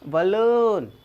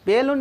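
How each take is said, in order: First: The first vowel sounds like 'uh'. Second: The first vowel sounds like 'eh'. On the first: The speaker calls it right. "इस तरह कहता है बलून" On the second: The speaker calls it wrong. "सभी कहते हैं बेलून, बेलून नहीं होती है"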